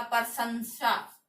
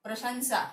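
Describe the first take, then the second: First: प्रशंसा said slowly with a plain s sound, like "prasansa"; wrong pronunciation. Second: प्रशंसा with the sh sound, "pra-shan-sa"; correct pronunciation. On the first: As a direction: drag out प्रशंसा as "pra-san-sa" with a plain s. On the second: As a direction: say प्रशंसा properly, the श as sh. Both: Shown as a demonstration. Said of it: "ऐसे नहीं होता".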